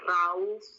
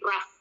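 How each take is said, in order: First: The vowel sounds like 'ow' in cow. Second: The vowel sounds like 'uh' in cup. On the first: The speaker calls it wrong. "O U itu nggak dibaca rauf gitu, enggak" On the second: The speaker calls it right. "tapi dibacanya jadi rough"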